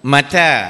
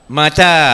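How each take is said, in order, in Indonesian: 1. Vokal kedua panjang, yang pertama pendek. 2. Vokal kedua panjang, yang pertama pendek.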